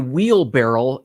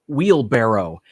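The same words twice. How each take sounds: First: The word ends with the sound 'barrel'. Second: The word ends with the sound 'barrow'. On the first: The speaker calls it wrong. "the term people say" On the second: The speaker calls it right. "instead of saying wheelbarrow"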